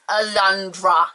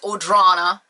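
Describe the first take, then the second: First: The name is said as Alundra. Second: The name is said as Audrana. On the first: The speaker calls it right. "I'm saying it right" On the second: The speaker calls it wrong.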